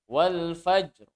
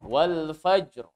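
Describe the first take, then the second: The two takes are said the same way.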